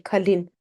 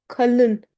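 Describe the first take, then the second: First: Kalin with an ee sound at the end; wrong vowel. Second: Kalın with schwa-like second vowel; dotless ı. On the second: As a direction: say kalın with a dull ı, not ee. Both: Shown as a demonstration. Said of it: "We don't say kalin".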